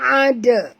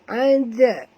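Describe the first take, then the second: First: The d sound is heavy and harsh. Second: The d sound is light and bounced. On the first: The speaker calls it wrong. "Bukan ada. Ha, itu kasar bunyi dia. Jadi tebal dal tu" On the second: The speaker calls it right. "Jangan takut nak lantun. Tapi jangan tebal"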